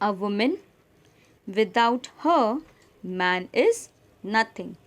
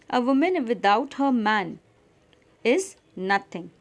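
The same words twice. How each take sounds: First: There is a pause after 'her', not 'man'. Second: There is a pause after 'man', not 'her'.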